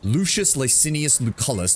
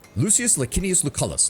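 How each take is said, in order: First: The C's are pronounced with a soft S sound. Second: The C's are pronounced with a hard K sound. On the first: "if I switch it to the modern, like, S pronunciation" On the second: "the hard C helps break up the L sound"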